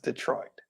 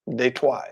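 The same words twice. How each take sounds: First: It is said with an English pronunciation. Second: It is said with a French pronunciation.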